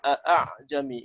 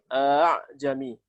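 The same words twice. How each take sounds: First: The second hamza is pronounced fully and clearly. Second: The second hamza is softened between hamza and vowel. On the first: The speaker calls it wrong. "bukan dibaca a'jami. Ini namanya tahqiq" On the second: The speaker calls it right. "dalam riwayat Hafs dibaca tashil hamzah ini"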